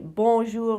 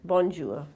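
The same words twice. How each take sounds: First: The N sound is left silent. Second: The N sound is clearly pronounced. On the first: The speaker calls it right. "you should say bonjour without the N in it" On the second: The speaker calls it wrong. "and not bonjour"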